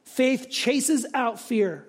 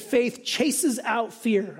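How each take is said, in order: First: Slow again with "chases" pressed hard; slow emphatic repeat. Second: Slow, each word weighed, stress on chases; slow emphatic quote. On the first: Preacher repeating the line for the congregation, slow and stressed. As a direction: repeat it slowly, landing on "chases". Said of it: "I liked that". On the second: Preacher quoting Carson to the congregation, slow and emphatic. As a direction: lean on "chases" and stretch the whole line slowly. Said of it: "D A Carson said". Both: Shown as a demonstration.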